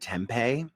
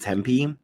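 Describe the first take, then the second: First: The name sounds like the food tempeh. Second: The name does not sound like tempeh. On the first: The speaker calls it wrong. "people pronounce it Tempe" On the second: The speaker calls it right. "there's a city in Arizona called Tempe"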